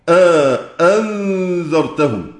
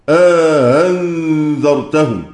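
First: The second hamza is fully and clearly pronounced. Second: The second hamza is softened, not fully pronounced. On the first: "ويقرأ كذلك" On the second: "الخلف في الفتح عنده دائر بين التسهيل والتحقيق"

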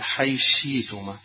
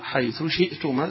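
First: The th merges into sh, with no glottal stop. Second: The th is heard separately, with a glottal stop. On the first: "الإدغام مع الإبدال ... حيلغي الهمزة" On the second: "يظهر"

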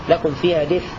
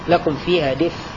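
The two takes are said the same way.

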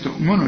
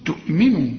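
First: The m is said without an i vowel. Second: The m is followed by an i vowel. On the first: The speaker calls it wrong. "في ناس تؤمنوا، لا" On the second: The speaker calls it right. "خد بالك ان الميم هنا مكسورة"

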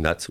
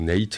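First: The vowel is a short open 'a'. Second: The vowel is an English-style 'ay' sound. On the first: "ça se prononce quand même Nat" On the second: "ou Nate, en anglais"

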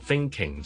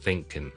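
First: The word ends with a full 'ing' sound. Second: The word ends with a clipped 'in' sound. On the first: "譬如我thinking" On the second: "好多人會讀成thinking"

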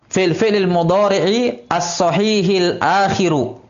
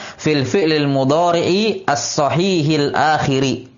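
First: The last word ends in a u vowel. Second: The last word ends in an i vowel. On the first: The word is in the nominative case. "yajuzu fihi ar-raf'u" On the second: The word is in the genitive case. "bisa di'rab jar"

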